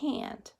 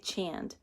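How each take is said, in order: First: The word begins with an h sound. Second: The word begins with a ch sound. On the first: The speaker calls it right. "Do you hear that?" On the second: The speaker calls it wrong. "We don't say chand"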